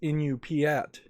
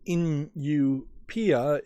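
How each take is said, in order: First: The word ends with a final t sound. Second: The word ends without a final t sound. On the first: The speaker calls it right. "It's Inupiat" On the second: The speaker calls it wrong. "I mispronounced the name. I didn't see the T there, so it's not Inupia"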